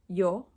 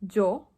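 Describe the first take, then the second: First: The first consonant is soft, teeth apart. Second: The first consonant is buzzy, teeth touching. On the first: The speaker calls it wrong. "the incorrect way of saying yo and ella would be yo and ella" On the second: The speaker calls it right. "the way that usually Spanish speakers pronounce it"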